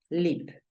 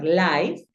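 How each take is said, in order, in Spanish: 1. La vocal es un sonido de 'i' corta. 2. La vocal suena como el nombre de la letra 'eye'. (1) "Tú la pronuncias live" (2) "no lo vas a pronunciar live"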